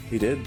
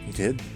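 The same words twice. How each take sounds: The two takes are said the same way.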